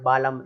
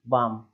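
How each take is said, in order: First: The L sound is pronounced in the word. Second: The L sound is silent in the word. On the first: The speaker calls it wrong. "ऐसा नहीं बोलना है" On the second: The speaker calls it right. "इसलिए लिखा हुआ है बाम"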